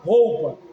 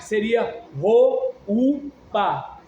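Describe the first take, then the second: First: The o and u blend into one syllable. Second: The o and u are separate syllables. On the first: The u is a semivowel. The speaker calls it right. "Mas a gente fala roupa" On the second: Both letters would be full vowels. The speaker calls it wrong. "Se as duas fossem vogais"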